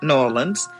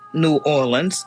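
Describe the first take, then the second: First: It is said the way locals say it. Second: It is said in the speaker's general accent.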